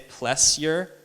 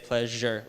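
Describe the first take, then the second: First: The middle lacks the zh sound. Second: The middle has a zh sound. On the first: The speaker calls it wrong. "We don't say pleasure or pleasure" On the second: The speaker calls it right. "like a J"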